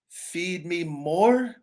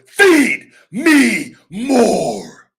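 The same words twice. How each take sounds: First: It is said weakly and hesitantly, without conviction. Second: It is said intensely and firmly, with conviction. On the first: The speaker calls it wrong. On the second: The speaker calls it right.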